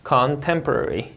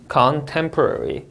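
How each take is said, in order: First: Slow "contemporary," stress on -tem-; second model of "contemporary"; word stress repeat. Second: Very slow "contemporary," stress on -tem-; word stress demo. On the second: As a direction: stretch "contemporary," hitting -tem-. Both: Shown as a demonstration. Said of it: "이름절 강세 주의해서 읽으셔야".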